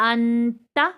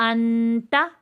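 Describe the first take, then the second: No difference in how they are said.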